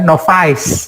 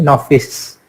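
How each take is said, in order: First: The last vowel sounds like the letter I. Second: The last vowel is short and flat. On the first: The speaker calls it wrong. "Novice ini juga bukan novice ya" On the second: The speaker calls it right. "tapi novice"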